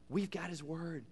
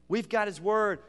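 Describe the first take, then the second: First: Hushed "We've got His Word". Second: Said in the usual way. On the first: Shown as a demonstration. Pastor softly stating the truth, hushed. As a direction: say it almost under the breath.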